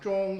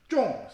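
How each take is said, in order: First: The syllable is said on a high level tone. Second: The syllable is said with a sharp falling tone. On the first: It means middle. "일성 쫑 이렇게 읽지만은" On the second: It means to hit a target. "쫑 스승 사성으로 읽어야 돼요"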